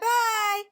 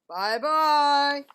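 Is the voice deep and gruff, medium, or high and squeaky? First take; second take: high squeaky; deep gruff. First: It is said in a high, squeaky voice. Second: It is said in a deep, gruff voice.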